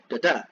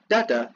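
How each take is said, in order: First: The stress is on the second syllable. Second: The stress is on the first syllable. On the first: "or un then stressed" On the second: "Either stressed then unstressed"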